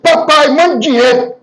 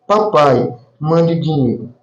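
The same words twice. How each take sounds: First: It is said in a harsh, demanding tone. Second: It is said in a soft, gentle tone.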